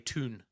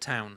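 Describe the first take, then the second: First: It is said in a Newcastle accent. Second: It is said in a standard accent.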